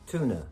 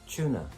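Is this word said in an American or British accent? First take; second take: American; British. First: No y sound follows the first consonant. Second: A y sound follows the first consonant.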